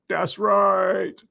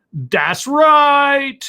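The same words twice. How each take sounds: First: Drawn-out affirmation in an altered voice; put-on catchphrase, subdued. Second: High-pitched, drawn-out affirmation; put-on catchphrase. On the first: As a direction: stretch the catchphrase in an understated put-on voice. Catchphrase repeated, lower and softer. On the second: Donation thanks, catchphrase said twice.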